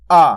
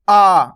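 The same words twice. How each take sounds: First: आ said as a short clear vowel; vowel demo. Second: आ drawn out long and a little louder; long vowel demo. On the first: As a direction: say आ crisp and short. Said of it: "आ किस तरीके से बनता है". (आ को साफ़ और छोटा बोलिए) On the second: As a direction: stretch आ out long. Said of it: "इसका खींच के हुआ". (आ को खींचकर लंबा बोलिए) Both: Shown as a demonstration.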